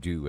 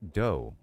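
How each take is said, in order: First: The vowel sounds like the word due. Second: The vowel sounds like the word doe. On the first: The speaker calls it wrong. "You said do as in D U E" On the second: The speaker calls it right. "in reality it's doe"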